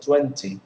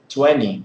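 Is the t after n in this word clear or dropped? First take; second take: clear; dropped. First: The t after the n is clearly pronounced. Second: The t after the n is dropped. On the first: "instead of" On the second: "even in British English, you hear twenty"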